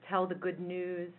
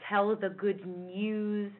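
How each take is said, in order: First: 'News' has a plain 'oo' without a glide. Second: 'News' has a 'y' glide after the n. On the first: The speaker calls it wrong. "instead of just tell the good news" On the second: The speaker calls it right. "tell the good news instead of"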